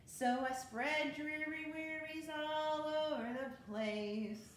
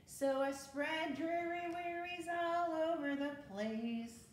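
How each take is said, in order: First: Said in the usual way. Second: Sung, sing-song picture-book chorus; sung rhyme line; sung refrain. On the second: Shown as a demonstration. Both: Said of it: "refrain repeated".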